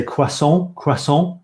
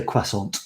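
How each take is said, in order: First: "croissant" as kwah-SON, no final T; French-style, silent T. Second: "croissant" as kwah-SONT, ending on T; anglicised, sounded T. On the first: Asking how English speakers say it, "croissant" with silent T. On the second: Asking if we just anglicise it, "croissant" with sounded T. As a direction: say "croissant" the English way, pronouncing the T. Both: Shown as a demonstration. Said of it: "and not say the T".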